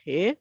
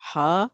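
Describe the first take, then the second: First: The letter name ends in an ay vowel. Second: The letter name ends in an ah vowel. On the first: This is the Urdu way of naming the letter. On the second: This is the Arabic way of naming the letter.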